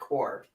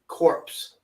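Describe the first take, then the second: First: The word ends with an 'r' sound. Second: The word ends with a 'ps' sound. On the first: "not core" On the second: "you said it properly. Corpse"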